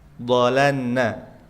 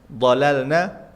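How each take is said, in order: First: The L disappears into a doubled N. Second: The L is clearly held before the N. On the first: The speaker calls it wrong. "Itu yang kurang tepat" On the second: The speaker calls it right. "harusnya dibaca"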